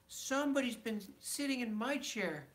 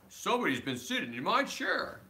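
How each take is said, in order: First: It is said in a medium, ordinary voice. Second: It is said in a deep, gruff voice.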